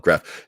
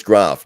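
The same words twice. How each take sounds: First: "graph" with a short flat a, like graff; "graph" with the vowel of cat; rejected pronunciation. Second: "graph" with a long ah, like grahf; loud "graph" with a broad vowel; preferred pronunciation. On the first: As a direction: say "graph" to rhyme with gaff. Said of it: "not graph". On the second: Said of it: "no, it's graph, not graph". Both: Shown as a demonstration.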